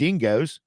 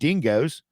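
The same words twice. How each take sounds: First: It is said with a put-on Australian accent. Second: It is said with a put-on Australian accent.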